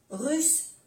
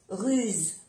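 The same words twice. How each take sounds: First: "Russe" pitched high, ending in an unvoiced s; double S. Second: "ruse" falling, ending in a voiced z; soft Z. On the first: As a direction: lift "Russe" and end on a hiss. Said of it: "pronunciar bien las dos S". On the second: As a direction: say "ruse" with a final buzz. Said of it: "se pronuncia como una Z suave". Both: Shown as a demonstration.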